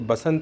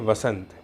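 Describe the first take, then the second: First: The word begins with a b sound. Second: The word begins with a v sound. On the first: The speaker calls it wrong. "बसंत नहीं कहेंगे" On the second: The speaker calls it right. "इसे कहेंगे वसंत"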